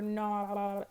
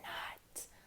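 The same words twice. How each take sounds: First: It is said in a gurgly underwater voice. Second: It is whispered very quietly.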